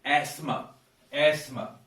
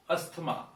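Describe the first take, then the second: First: Asthma said "asma" with a silent T and long A; correct asthma. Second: Asthma said "astma", sounding the T; wrong asthma. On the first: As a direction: drop the T in asthma. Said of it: "it is asthma". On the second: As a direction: pronounce the T in asthma, the mistaken way. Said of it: "It is not asthma". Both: Shown as a demonstration.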